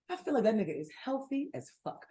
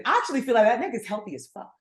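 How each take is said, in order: First: Much softer restatement; hushed aside. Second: Said in the usual way. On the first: Real, not acted. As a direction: drop the volume and say it confidentially. Same words repeated, dropped down.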